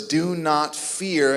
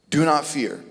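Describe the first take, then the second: First: "Do not fear" drawn out slowly, "Do" leaned on; slow it right down, leaning on "Do"; slow emphatic command. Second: Said in the usual way. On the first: Shown as a demonstration. Preacher repeating the command to the congregation, slow and emphatic. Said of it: "reinforces what he is saying by repeating". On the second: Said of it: "he will say it three times".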